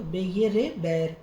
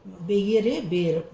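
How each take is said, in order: First: बैर said with open vowel like bair, the wrong way. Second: बेर said with a closed e like ber, slow and a bit louder; correct vowel ber. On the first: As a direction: say बैर with open ai sound, as the mistake. (बैर को खुले ऐ स्वर से, गलत उच्चारण) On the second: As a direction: stress बेर with a pure closed e sound. (बेर को बंद ए स्वर से, सही उच्चारण) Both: Shown as a demonstration. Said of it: "बैर नहीं है बेर".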